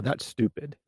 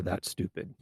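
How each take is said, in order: First: Scornful, with a rise on That's; mock a contemptuous put-down; harsh dismissal. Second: Muttered scornful verdict; a tossed-off contemptuous put-down; harsh dismissal. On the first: Demo of a rude reply to an idea, scornful. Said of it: "That's a lot less harsh than". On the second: Demo of shutting someone down, scornful. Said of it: "Much better than". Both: Shown as a demonstration.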